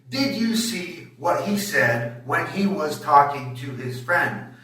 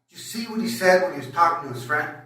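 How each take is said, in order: First: Every syllable gets roughly equal time. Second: Only content words are slow; the rest is rushed.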